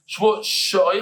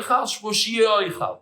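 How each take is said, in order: First: Said in the usual way. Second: "she'oichal" with an extra ee after "she"; stuck-on E. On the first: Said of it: "how you pronounce it". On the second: Shown as a demonstration. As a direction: stretch "she'oichal" into shee-ee-oichal, slowly. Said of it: "you stick it on the E".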